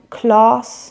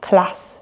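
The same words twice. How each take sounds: First: It has a long back RP vowel. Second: It has a short flat northern vowel.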